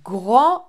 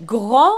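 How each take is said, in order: First: The final S is silent. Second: The same.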